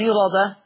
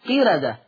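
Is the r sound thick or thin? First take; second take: thick; thin. First: The r is pronounced thick and full. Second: The r is pronounced thin, after a clear i vowel. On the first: The speaker calls it wrong. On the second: The speaker calls it right.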